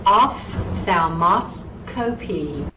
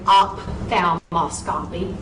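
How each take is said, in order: First: Ophthalmoscopy slowly, off-thal-mo-scopy, with an F sound; correct rhythmic pronunciation. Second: Ophthalmoscopy said with a P sound, op-thal; wrong pronunciation. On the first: Teacher models the right ophthalmoscopy after the wrong one. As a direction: let ophthalmoscopy roll with rhythm. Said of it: "nice little rhythm to it". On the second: Teacher demonstrates the embarrassing wrong ophthalmoscopy. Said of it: "please do not embarrass yourself and say". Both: Shown as a demonstration.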